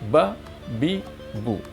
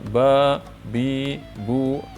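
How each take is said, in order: First: The vowels are said short. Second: The vowels are said long. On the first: The speaker calls it right. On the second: The speaker calls it wrong.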